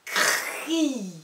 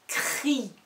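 First: "Cri" with a long R and I; drawn-out dictation. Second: "Cri" said more compactly, higher voice; shorter dictation. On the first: Teacher dictating the third syllable, sounds stretched. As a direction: stretch out "Cri" at a higher pitch. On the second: Teacher dictating the third syllable, short and distinct. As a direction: say "Cri" distinctly with a brief vowel. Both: Shown as a demonstration. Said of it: "des dictées de syllabes".

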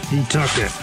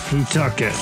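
The two takes are said the same way.

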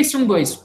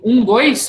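First: Said in the usual way. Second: Um, then dois punched louder as a second beat; counted beat. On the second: Shown as a demonstration. Coach demonstrating a two-beat attack rhythm, counted. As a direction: count "um, dois" as two separate fencing beats, "dois" hit harder. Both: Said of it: "O que que é esse um, dois?".

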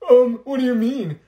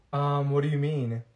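First: Higher and louder, with attitude; sassy retort. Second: Said in the usual way. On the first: Acted. Student snapping back at classmate, higher and louder. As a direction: throw the question back with attitude.

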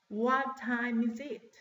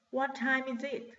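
First: Slower, each word set apart; slow model question. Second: Said in the usual way. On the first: Shown as a demonstration. Teacher repeating the clock question for class, slow model question. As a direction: draw the question out for learners.

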